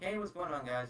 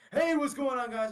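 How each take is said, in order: First: The greeting is said in a calm, relaxed voice. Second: The greeting is yelled in a loud, energetic voice. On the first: The host seems relaxed and welcoming. "he has this like very calm aura" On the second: The host seems overbearing. "I'm just gonna yell at the camera"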